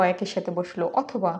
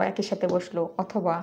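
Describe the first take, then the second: No difference in how they are said.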